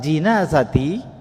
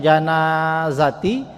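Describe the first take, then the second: First: The first syllable has the vowel 'i'. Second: The first syllable has the vowel 'a'. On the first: It names the bier that holds the deceased. "dibaca jinazati" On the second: It names the deceased person lying in the bier. "yang awalnya janaiz atau janazati"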